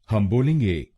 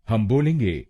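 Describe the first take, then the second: No difference in how they are said.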